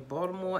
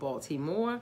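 First: It is said in a local Baltimore accent. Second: It is said in a standard, non-local accent. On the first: "by my accent because I say Baltimore" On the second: "and not Baltimore"

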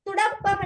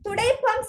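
First: The middle syllable is pronounced 'da'. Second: The middle syllable is pronounced 'dai'. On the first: The speaker calls it wrong. "துடப்பம் என்றா புல" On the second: The speaker calls it right. "துடைப்பம் சரி"

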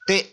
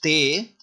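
First: The vowel is short. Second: The vowel is long. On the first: "here we have short vowel sound" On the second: "make the te as a long vowel sound"

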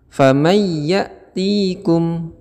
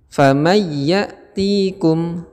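First: The nasal hum is missing before the y. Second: The nasal hum is missing before the y.

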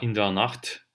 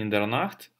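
First: The t is said with a puff of air. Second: The t is said without a puff of air. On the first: The speaker calls it right. "а in der Nacht" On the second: The speaker calls it wrong. "Не in der Nacht"

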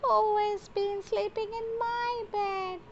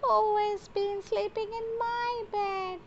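First: It is said in a tiny, squeaky voice. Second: It is said in a tiny, squeaky voice.

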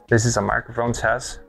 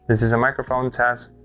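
First: The transmitter is five meters from the receiver. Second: The transmitter is three meters from the receiver. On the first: "about 4.8 meters or to 5 meters away from the camera" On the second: "now I'm currently away 3 meters from the receiver"

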